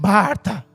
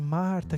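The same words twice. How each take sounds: First: The name is said in an irritated, scolding tone. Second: The name is said in a gentle, caring tone. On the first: The speaker is fed up with her. The speaker calls it wrong. "ele não está falando assim, Marta, sua chata" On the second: The speaker cares for her. The speaker calls it right. "Ele está falando assim, Marta, querida, presta atenção"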